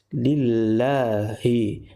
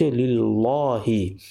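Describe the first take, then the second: First: The lam is pronounced thin and light. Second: The lam is pronounced thick and heavy. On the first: The speaker calls it right. "perlu dibaca secara nipis" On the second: The speaker calls it wrong. "tak boleh baca"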